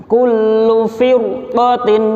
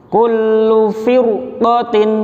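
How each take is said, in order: No difference in how they are said.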